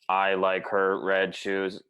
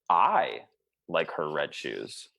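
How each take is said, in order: First: It is flat, with no word stressed. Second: The first word carries the stress. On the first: It could mean anything. "I'll be a robot, right? All one" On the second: Someone else dislikes them. "if I actually just emphasize one word"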